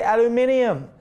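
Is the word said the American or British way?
British. It is said the British way, with an extra sound.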